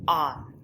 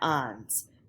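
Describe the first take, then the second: First: The word sounds like English 'on'. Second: The word does not sound like English 'on'. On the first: The speaker calls it right. "it is pronounced on, on. Kind of like the book is on the table" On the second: The speaker calls it wrong. "A lot of students want to say ans. It is not ans"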